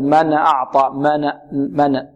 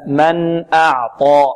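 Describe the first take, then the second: First: "من" said as "mana" before "أعطى"; noon wrongly vowelled. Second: "من" closed on n, "أعطى" slowly drawn out; clear still noon. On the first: Retold or imitated. Teacher warning students what not to say, noon bounced. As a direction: repeat the error, a stray vowel after the n of "من". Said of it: "لا نقول". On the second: Shown as a demonstration. Teacher giving students the correction, slow clear noon. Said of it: "لا، من أعطى".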